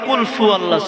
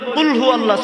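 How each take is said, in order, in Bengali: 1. দ্বিতীয় শব্দটি f ধ্বনি দিয়ে শুরু হয়। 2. দ্বিতীয় শব্দটি h ধ্বনি দিয়ে শুরু হয়। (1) "অনেকে আবার কয়" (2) "যেটাকে আমরা আমাদের ব্যক্তিগতভাবে বলি"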